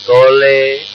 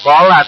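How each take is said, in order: First: The word ends with a leaning 'e' vowel. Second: The word ends with an open 'a' vowel. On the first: This is the imala reading. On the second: This is the ordinary reading.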